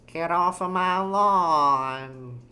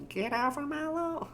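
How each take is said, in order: First: Put-on slow, drawn-out cranky old person. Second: Put-on very high, soft old person squeak; trying a tiny high old person voice; old person in squeaky falsetto. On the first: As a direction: stretch it out like an old lawn-guarder. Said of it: "How do you do an old person?". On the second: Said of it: "how does an old person talk?". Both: Shown as a demonstration.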